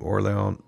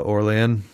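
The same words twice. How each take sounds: First: Orlean with an open "ah" in the last syllable; corrected pronunciation. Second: Orlean with a short, unstressed "-ee-ən" ending; first pronunciation. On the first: DJ correcting the artist's name, [name] with a full "-ahn" ending. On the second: DJ naming the artist on air, [name] with a reduced ending. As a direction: say Orlean as "or-LEE-ən", weak last vowel. DJ corrects own pronunciation of name. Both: Shown as a demonstration.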